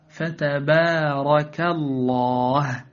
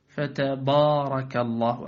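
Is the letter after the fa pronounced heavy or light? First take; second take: light; heavy. First: The ba and alif sound light and thin. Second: The ba and alif sound heavy and thick. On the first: The speaker calls it right. "فقل فتبارك الله هكذا" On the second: The speaker calls it wrong. "فلا تقول"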